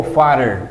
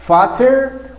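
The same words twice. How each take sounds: First: "father" as fadder, with a tapped T; "father" meaning fatter, T softened to a flap; soft flapped T. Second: "fatter" with a clearly sounded T; "fatter" as fat-ter, hard T; crisp T pronunciation. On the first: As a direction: say "father" with a quick D-like middle. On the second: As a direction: say "fatter" slowly, hitting the T. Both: Shown as a demonstration. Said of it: "Tú puedes pronunciar, you can pronounce".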